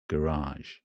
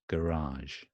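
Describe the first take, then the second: The two takes are said the same way.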